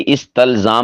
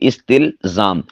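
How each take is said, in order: First: The vowel after the t is a. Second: The vowel after the t is i. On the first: The speaker calls it wrong. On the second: The speaker calls it right.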